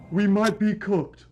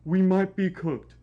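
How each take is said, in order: Both takes have the same delivery.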